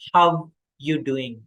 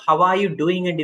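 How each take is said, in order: First: The word 'are' is dropped entirely. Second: The word 'are' is clearly pronounced. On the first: "we pronounce as ஹவ் யூ டூயிங்" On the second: "ஹவ் ஆர் யூ டூயிங் இதுல இருக்கு"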